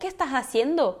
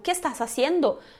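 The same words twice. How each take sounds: First: The S sounds are aspirated, like a breathy h. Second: The S sounds are pronounced strongly and fully.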